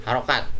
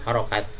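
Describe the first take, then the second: The two takes are said the same way.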